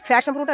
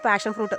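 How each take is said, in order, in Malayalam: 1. ആദ്യ വാക്ക് 'f' ശബ്ദത്തിലാണ് തുടങ്ങുന്നത്. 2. ആദ്യ വാക്ക് 'p' ശബ്ദത്തിലാണ് തുടങ്ങുന്നത്. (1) "ഫാഷൻ ഫ്രൂട്ട് അല്ല"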